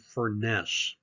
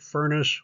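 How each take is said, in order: First: The name does not sound like 'furnace'. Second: The name sounds like the word 'furnace'. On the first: The speaker calls it wrong. "a lot of people who want to pronounce this family name" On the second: The speaker calls it right. "the way to remember it is"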